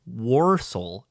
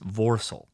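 First: The first letter is said like an English W. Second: The first letter is said like an English V. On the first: This is the American way of saying it. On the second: This is the German way of saying it.

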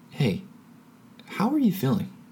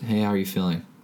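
First: It is asked in a slow, sincere way. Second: It is asked in a quick, casual way.

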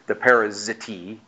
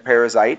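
First: The ending is pronounced as a plain T. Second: The ending is pronounced like 'ite'. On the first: This is the original-language way of saying it. "in the original language, they would be a T" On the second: This is the modern way of saying it. "I'm going to pronounce these in the more newer vernacular"

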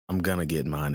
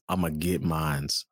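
First: The last word ends without an s sound. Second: The last word ends with an added s sound. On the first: The speaker calls it wrong. "It's not" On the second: The speaker calls it right.

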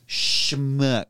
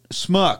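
First: The word begins with a sh sound. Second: The word begins with a plain s sound. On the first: The speaker calls it right. "finally do say it right" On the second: The speaker calls it wrong. "A what?"

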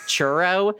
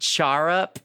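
First: It is run together to sound like 'churro'. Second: The first vowel is an open 'ar' sound. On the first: "they're saying, like, churro" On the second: "they're saying, like, char up"

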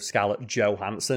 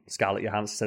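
First: The surname has an American pronunciation. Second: The surname has a Danish pronunciation.

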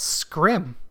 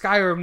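First: The word is squeezed into one syllable. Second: The word is said with two syllables. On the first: The speaker calls it wrong. "I was pronouncing it. What's Scrim?" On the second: The speaker calls it right. "I know it's Skyrim now"

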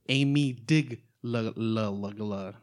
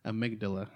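First: The word is mangled with playful extra sounds. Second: The word is pronounced in its ordinary form.

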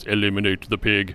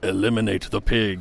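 First: It is said in a deep, Austrian-accented impression voice. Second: It is said in the speaker's ordinary voice.

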